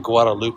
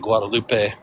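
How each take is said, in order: First: The name is said with English-style sounds. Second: The name is said with Spanish-style sounds. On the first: This is how local people say it. The speaker calls it right. "You say Guadalupe" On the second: This marks the speaker as an outsider. The speaker calls it wrong. "they don't say Guadalupe"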